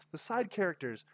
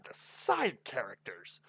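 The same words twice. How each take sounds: First: Gushing "The side characters"; excited emphasis. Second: Slow, stretched, savoring the words; drawn-out "the side characters"; drawn-out emphasis. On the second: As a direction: lean into "the side characters" slowly. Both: Shown as a demonstration.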